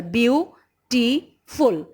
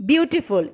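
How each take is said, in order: First: "Beautiful" slowly pulled into three parts; syllable by syllable. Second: Said in the usual way. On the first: Shown as a demonstration. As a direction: say "Beautiful" as beau - ti - ful, one beat each. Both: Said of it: "is made of three syllable".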